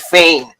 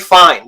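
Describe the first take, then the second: First: The vowel is an 'ay' sound. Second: The vowel is a plain 'eye' sound. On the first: "they say Fane" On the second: "they don't say fine"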